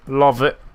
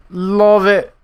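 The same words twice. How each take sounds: First: Said in the usual way. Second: Excited. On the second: Acted. Repeats praise, much higher.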